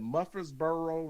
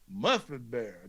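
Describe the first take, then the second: First: The name is said in a plain standard pronunciation. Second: The name is said in a local regional pronunciation.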